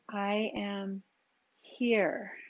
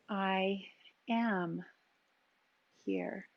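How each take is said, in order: First: The word here carries the emphasis. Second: The word am carries the emphasis. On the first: Awareness of the place right now. "Really aware of what here is right now" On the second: Awareness of how one is being present. "Am. How are you being here?"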